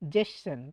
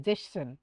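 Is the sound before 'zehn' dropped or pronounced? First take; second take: dropped; dropped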